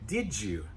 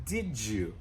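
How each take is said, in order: First: The d and y blend into a j sound. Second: The d and y blend into a j sound.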